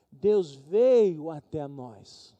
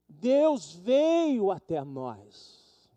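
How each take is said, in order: First: Each word drawn out, louder; slow, loud proclamation. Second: Very slow drawn-out Deus veio até nós; even slower proclamation. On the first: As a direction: proclaim slowly. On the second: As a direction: hold every syllable. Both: Acted. Repete a frase.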